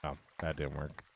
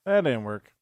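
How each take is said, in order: First: Muttered under the breath, softer; low disappointed murmur; quiet mutter. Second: Said again, louder, with a falling finish; louder, firm restatement; louder repeat. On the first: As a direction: say it to yourself, let it drop away. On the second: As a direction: repeat it out loud so everyone hears. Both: Real, not acted.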